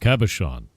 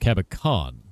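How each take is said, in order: First: The middle consonant is a soft 'sh' sound. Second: The middle consonant is not an 'sh' sound. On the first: "The C H is S, so it's Cabochon" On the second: "I was told by Princess Akana that it's Cabicon"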